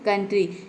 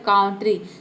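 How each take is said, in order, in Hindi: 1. पहला स्वर 'uh' जैसा सुनाई देता है। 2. पहला स्वर 'ow' जैसा सुनाई देता है। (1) "इसको हम प्रोनाउंस करते हैं कंट्री" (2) "अगर इसको हम ओ यू को आउ प्रोनाउंस करें तो ये हो जाएगा काउंट्री"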